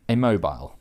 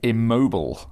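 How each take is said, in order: First: It is said with a non-American pronunciation. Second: It is said with an American pronunciation.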